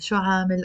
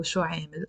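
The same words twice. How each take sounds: First: عامل said with a long aa, "aamil"; open aa pronunciation. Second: عامل said with a long eh, "eemil" as in "air"; eh pronunciation. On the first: Teacher comparing two pronunciations, عامل with aa. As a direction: open the first vowel of عامل to aa. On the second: Teacher comparing two pronunciations, عامل with eh. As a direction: raise the first vowel of عامل to eh. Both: Shown as a demonstration. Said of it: "we can also pronounce it".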